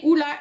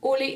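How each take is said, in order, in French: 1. Le nom finit par la voyelle 'ah'. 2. Le nom finit par la voyelle 'eh'. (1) "ça se dit bien Ola" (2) "et non Ole"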